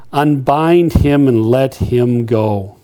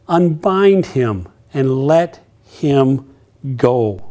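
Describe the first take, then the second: First: Slowed, weighty Unbind him; slow solemn command. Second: Unbind stretched out, very slow; slower emphatic repeat. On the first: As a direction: lay each word down slowly. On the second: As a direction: savour the command word by word. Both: Shown as a demonstration.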